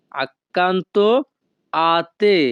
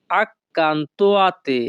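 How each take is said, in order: First: "Accanto" then a pause before "a te"; split in two. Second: Very slow, each sound drawn out; slow demo. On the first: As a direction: break it into two chunks. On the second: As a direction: stretch it out for the learners. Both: Shown as a demonstration.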